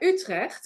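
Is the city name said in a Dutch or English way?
Dutch. The name is said with a native Dutch pronunciation.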